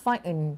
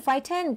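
First: "frightened" without a middle T; T dropped. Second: "frightened" with an audible middle T; T sounded. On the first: Teacher sets up a poll for students, middle T dropped in "frightened". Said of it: "ไม่มีตัว T". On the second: Teacher sets up a poll for students, middle T sounded in "frightened". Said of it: "ที่มีตัว T". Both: Shown as a demonstration.

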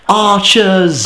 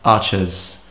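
First: High, drawn-out cry of warning; mock alarm call. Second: Said in the usual way. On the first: Gamer warns his friend of archers, high drawn-out call.

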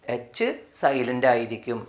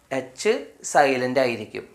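No difference in how they are said.

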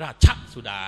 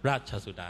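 First: Jab the "ช" in "ราชสุดา" sharply; wrongly stressed linking syllable. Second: "ราชสุดา" with the linking "ช" light and in mid tone; mid-tone linking syllable. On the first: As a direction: show the mistake by hammering "ช" in "ราชสุดา". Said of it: "ไม่ใช่ราชสุดา". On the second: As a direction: pass smoothly over "ช" in "ราชสุดา", unstressed. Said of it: "ต้องออกเสียงเป็นเชิงสามัญ". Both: Shown as a demonstration.

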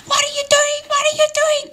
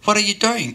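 First: Put-on very high-pitched old lady screech; hammed-up screaming old woman. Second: Said in the usual way. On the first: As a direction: shriek it in mock panic, far above your own voice. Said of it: "this old lady came out screaming". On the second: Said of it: "And I said".

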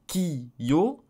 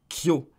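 First: "Ki-yo" in two separate slow beats; "Ki-yo" as two full syllables; two-beat rhythm. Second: "kyo" squeezed into one beat; no break between k and yo in "kyo"; "kyo" as a single syllable; one-beat rhythm. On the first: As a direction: break it after Ki. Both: Shown as a demonstration. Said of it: "du, du rythme".

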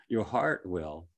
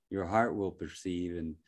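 First: Heart drawn out slowly with a laugh; slow stress on heart. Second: Said in the usual way. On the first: Shown as a demonstration. Speaker to listeners, slowly stressing heart with a laugh. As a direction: lean warmly on the word heart.

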